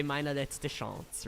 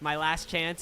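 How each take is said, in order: First: Slow German "Meine letzte Chance" with French-style Chance; German pronunciation. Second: Said in the usual way. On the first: Shown as a demonstration. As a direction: spell it out slowly in proper German. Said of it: "I would say". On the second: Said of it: "if I wanted to say".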